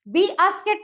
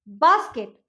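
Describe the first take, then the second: First: It begins with the letter name 'bee'. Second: It begins with a plain short b sound. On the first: The speaker calls it wrong. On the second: The speaker calls it right.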